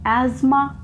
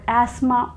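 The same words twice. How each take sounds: First: Asthma said as "AZ-ma", with a Z; American pronunciation. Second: Asthma said as "ASS-ma", with an S; British pronunciation. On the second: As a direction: say asthma without Z, British style. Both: Shown as a demonstration. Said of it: "choose however you like to pronounce".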